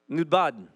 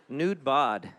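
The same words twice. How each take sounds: First: The name is said quickly and run together. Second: The name is said slowly and separately. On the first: The speaker calls it right. "That's better. You say it fast" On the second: The speaker calls it wrong. "That sounds kind of funny"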